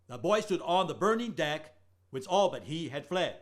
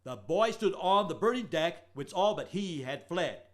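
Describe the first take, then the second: First: Beat-marked recitation, stress on "all"; rhythm four by three. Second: Slow, beat-marked recitation, stress on "on"; rhythm four by three. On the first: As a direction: recite it again marking the beats. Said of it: "Isso é quatro por três". (recitado marcando o ritmo, ênfase em "all") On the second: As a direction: tap out the four-three meter slowly. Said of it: "ritmo quatro por três". (recitado marcando o ritmo quatro por três, devagar) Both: Shown as a demonstration.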